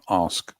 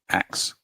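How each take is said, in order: First: It is said like 'ask', ending in s-k. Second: It is said like 'axe', ending in k-s. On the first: The speaker calls it right. "not ask" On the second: The speaker calls it wrong. "they go axe"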